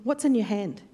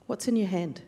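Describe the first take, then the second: First: Said in the usual way. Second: What's in your hand? asked again, softer and lower; softer repeat. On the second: Shown as a demonstration. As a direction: repeat the question gently, dropping the volume.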